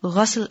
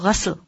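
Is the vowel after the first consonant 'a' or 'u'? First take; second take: a; a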